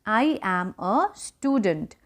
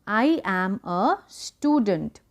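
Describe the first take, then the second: First: Slow, softer second read of I am a student; quiet, slow repetition; slow softer repeat. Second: Very slow, careful I am a student; slow classroom modelling; slow model sentence. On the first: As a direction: repeat gently for the class. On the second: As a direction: spell out each word for learners. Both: Shown as a demonstration. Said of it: "मैं एक विद्यार्थी हूँ".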